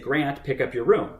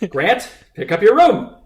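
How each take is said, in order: First: It is said at a normal, quiet volume. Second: It is said with a louder, raised voice.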